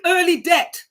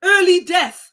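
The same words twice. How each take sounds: First: Jamaican accent, death said like debt. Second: Said in the usual way. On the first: Real, not acted. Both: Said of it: "my Jamaican accent is coming out there".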